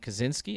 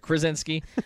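First: The name is said without an R sound. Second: The name is said with an R sound. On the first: The speaker calls it wrong. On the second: The speaker calls it right.

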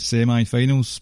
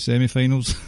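First: It is said with an American pronunciation. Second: It is said with a British pronunciation.

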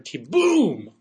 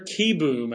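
First: The stress is on the second syllable. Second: The stress is on the first syllable. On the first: The speaker calls it right. "He should be Spencer Keboom" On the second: The speaker calls it wrong. "They have the emphasis on the first syllable"

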